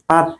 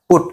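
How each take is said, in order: First: The vowel is an open uh sound. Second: The vowel is a rounded oo sound. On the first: The speaker calls it wrong. "এটা কি পাট না পুট" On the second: The speaker calls it right. "ব্যতিক্রম"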